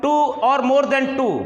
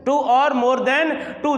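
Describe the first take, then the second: First: Very slow, each word spaced; slow stress. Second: Said slowly again, each word spaced; slow repeat. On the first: Teacher stressing a definition slowly to students. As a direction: drag out the phrase for emphasis. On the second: Teacher repeating a definition slowly for students. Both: Shown as a demonstration. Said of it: "जो दो या दो से अधिक शब्दों से".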